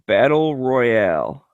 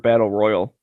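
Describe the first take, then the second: First: The last word is said in a fancy way. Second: The last word is said in a plain way. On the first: "say it fancy" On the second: "say it normal"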